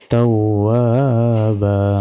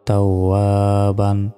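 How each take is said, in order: First: The word ends on a vowel, no n. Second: The word ends with an n sound. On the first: The reading stops at this word. "দুই জবরে থামলে একটি জবর উচ্চারণ হবে" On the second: The reading continues without stopping. "বা দুই জবর বান"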